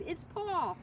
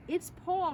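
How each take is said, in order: First: High echoing call of the name; excited cry. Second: A high excited cry; mildly screamed name. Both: A narrator's reading. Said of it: "she screamed".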